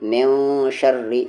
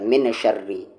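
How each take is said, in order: First: The n is hidden with nasalization. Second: The n is pronounced clearly. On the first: The speaker calls it right. "यहाँ पर इख्फा है" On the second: The speaker calls it wrong. "आपने कह दिया मिन शर्री, तो ये भी गलती है"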